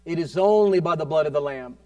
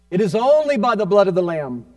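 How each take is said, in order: First: Measured, emphatic declaration; firm preaching. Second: Loud, ringing declaration; forceful preaching. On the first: Preacher declaring the blood of the Lamb, firm emphasis. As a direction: declare it firmly to the congregation. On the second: Preacher proclaiming the blood of the Lamb, loud and forceful. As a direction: drive it home with a raised voice. Repeats line with more force. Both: Real, not acted.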